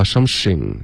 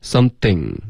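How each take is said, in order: First: "something" said as "some-shing"; sh mispronunciation. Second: "Something" with a clear th in the middle; tongue between the teeth for "Something"; careful model of "Something" with th; correct th. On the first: Retold or imitated. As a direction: put a sh in place of th in "something". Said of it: "刚刚用了一个诗的音了". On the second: Shown as a demonstration. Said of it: "不能发something".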